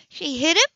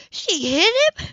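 First: High, loud disbelieving gasp of a question; shocked question. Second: Much higher and louder, nearly crying out; stunned disbelief. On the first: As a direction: she can't believe what she hears. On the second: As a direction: horror breaking through the question. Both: Acted. Shocked woman repeats question.

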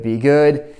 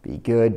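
First: Louder, urgent plea. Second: Said in the usual way. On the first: Real, not acted. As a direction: push the plea harder.

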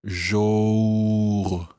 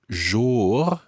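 First: JOUR drawn out, gliding from aw to a rounded oo; rounded lips. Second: JOUR with an open aw vowel, like "more"; rhymes with more. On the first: Teacher showing lips rounding after "more", drawn-out vowel. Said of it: "and then rounding your lips". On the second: Teacher giving a trick for difficulty saying it, open vowel. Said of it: "as in rhyming with more". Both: Shown as a demonstration.

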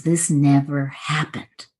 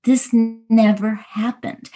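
First: Said in the usual way. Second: "never" drawn out and high, the whole line slowed; emphatic repeat. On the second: Real, not acted. Repeating the Course's teaching on forgiveness, stress on "never". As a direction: lean slowly on "never", pitch lifted.

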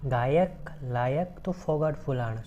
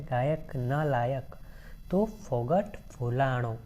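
First: Said in the usual way. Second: Each word of the verse drawn out slowly; slow recitation. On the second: Shown as a demonstration. Teacher repeating the verse line slowly for the class, slow recitation. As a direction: read it slowly so the class hears the sounds. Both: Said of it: "શું કહે છે?".

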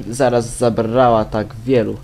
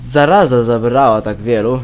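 First: Said in the usual way. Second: "Zaraza" said in full, with its final a, louder; corrected misreading. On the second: Real, not acted. Player rereading a letter line after a slip, "Zaraza" pronounced in full. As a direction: stress the corrected word "Zaraza", all three syllables.

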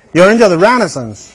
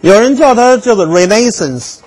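First: Renaissance said REN-uh-sahns, stress on REN; other English pronunciation. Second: Renaissance said the English way, ray-NAY-sense; English Renaissance, stress on NAY; English pronunciation. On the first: Lecturer gives the second English way to say Renaissance. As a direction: Renaissance with first-syllable stress. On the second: Lecturer demonstrates Renaissance the English way. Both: Shown as a demonstration.

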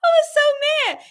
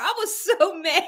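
First: "so mad" pushed high and loud; high squeal of "so mad"; emphatic. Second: Laughing through the words; half-laughing confession. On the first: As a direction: stress "so" hard, up high. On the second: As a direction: giggle while admitting it. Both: Real, not acted.

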